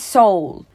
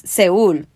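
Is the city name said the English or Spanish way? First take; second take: English; Spanish. First: The name is said the English way, like soul. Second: The name is said the Spanish way, se-UL. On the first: It also means soul in English. "él dice Seoul" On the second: It is just the city name. "pero es Seúl"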